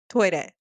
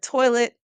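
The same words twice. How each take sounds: First: It is said with a Japanese pronunciation. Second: It is said with an American English pronunciation.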